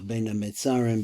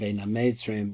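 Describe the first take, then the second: First: It is said with standard Hebrew vowels. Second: It is said with Ashkenazi Hebrew vowels.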